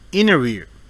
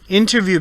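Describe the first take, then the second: First: The T sound after N is dropped. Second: The T sound after N is pronounced.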